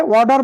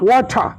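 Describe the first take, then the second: First: American "ওয়াটার" with t voiced as d and a sounded r; teacher's model of American ওয়াটার; American accent. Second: British "ওয়াটার" with an aspirated t, no final r; teacher's model of British ওয়াটার; British accent. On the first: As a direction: say ওয়াটার as war-dar, American style. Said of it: "ওয়াটার বলে American". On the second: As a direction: echo ওয়াটার the British way, wa-tha. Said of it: "আর British বলে কি". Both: Shown as a demonstration.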